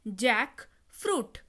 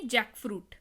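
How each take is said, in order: First: jackfruit drawn out slowly as जैक, fruit; slow, separated syllables. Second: Said in the usual way. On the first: Shown as a demonstration. Teacher repeats the new word for learners, jackfruit slowly in two parts. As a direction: break jackfruit in two, each half stretched.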